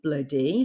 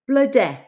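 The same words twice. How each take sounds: First: The final vowel is an 'ee' sound. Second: The final vowel is an 'eh' sound. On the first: "like E" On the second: "it's pronounced eh"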